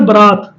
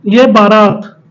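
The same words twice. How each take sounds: First: बरात with a short first vowel, ba-raat; the correct बरात, short first syllable; correct form. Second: बारात with a long आ, baa-raat; the incorrect spelling बारात, long आ after ब; wrong form. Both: Shown as a demonstration. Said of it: "बारात का शुद्ध कौन सा होता है".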